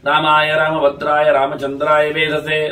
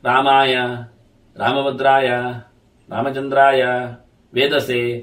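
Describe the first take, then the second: First: The words flow together without pauses between them. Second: Each word is said separately with pauses between. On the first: The recitation earns its merit. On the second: No special merit is gained.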